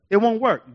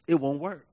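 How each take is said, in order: First: "It won't work" lifted to full voice; emphatic repeat. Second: "It won't work" dropped low and soft; low-key verdict. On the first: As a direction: restate "It won't work" firmly, at full volume. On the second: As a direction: say "It won't work" lower, like a grave aside. Grave verdict, then repeated firmly. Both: Real, not acted.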